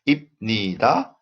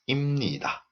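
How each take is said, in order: First: It has a b sound before nida. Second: It has an m sound before nida. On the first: "b changes to mo"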